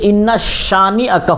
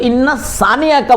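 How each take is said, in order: First: The second word begins with an sh sound. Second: The second word begins with an s sound. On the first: The speaker calls it right. "बल्कि इन्ना शानी अका हुवल अबतर" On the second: The speaker calls it wrong. "इन्ना सानी अका ना बोले"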